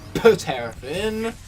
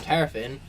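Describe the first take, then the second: First: The name starts with an added P sound. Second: The name starts without any P sound. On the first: "with a P, it's no longer silent" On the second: "it's Terrafin with a silent P"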